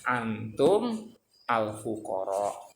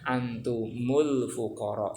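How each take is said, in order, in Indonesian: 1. Kedua kata itu diucapkan terpisah tanpa disambung. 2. Kedua kata itu disambung dengan vokal penghubung. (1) "dibaca pisah-pisah" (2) "biar bisa dibaca ya antumul fuqara"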